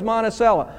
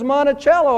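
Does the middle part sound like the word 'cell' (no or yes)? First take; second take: yes; no. First: The 'c' is said like 'cell'. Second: The 'c' is not said like 'cell'. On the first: "C-E-L-L, obviously it's cell" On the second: "They said it was Monticello"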